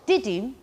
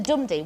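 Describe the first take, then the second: First: "didum" with the weight on "dum"; light "di", strong "dum"; iambic stress. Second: "dumdi" with the weight on "dum"; strong "dum" falling to a light "di"; trochaic stress. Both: Shown as a demonstration. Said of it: "is different than dumdi".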